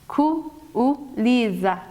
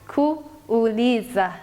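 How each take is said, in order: Both takes have the same delivery.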